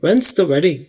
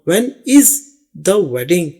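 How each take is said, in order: First: 'When is' is run together quickly as 'when's'. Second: 'When is' is said as two separate words. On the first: The speaker calls it right. "अंग्रेज लोग हमेशा ऐसे ही बोलते हैं" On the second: The speaker calls it wrong. "ये नहीं बोलेंगे"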